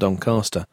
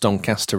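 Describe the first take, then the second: First: The first vowel is a less open A. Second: The first vowel is a more open A. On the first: "rather than Doncaster" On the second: "with a more open A"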